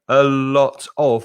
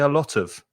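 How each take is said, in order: First: The words are said separately, with breaks. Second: The words are joined smoothly without breaks.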